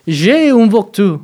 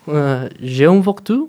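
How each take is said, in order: First: "J'ai" said higher and louder, slowly; demoing French intonation, "J'ai" stressed. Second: Slow "voiture" with a rising end; demoing French intonation, "voiture" rising; rising question. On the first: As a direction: hit "J'ai" and let it fall. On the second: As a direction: ask "j'ai un voiture" with a rising tune. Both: Shown as a demonstration. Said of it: "es más como".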